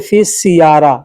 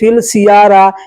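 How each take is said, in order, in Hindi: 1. 'sayyara' से पहले का छोटा शब्द S पर खत्म होता है। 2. 'sayyara' से पहले का छोटा शब्द L पर खत्म होता है। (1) "फिल सियारा या फिस सियारा दोनों एक ही चीज है" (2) "फिल या फिस ऐसे बोलेंगे"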